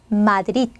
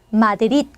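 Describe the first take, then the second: The two takes are said the same way.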